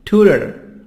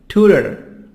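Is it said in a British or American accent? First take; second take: American; American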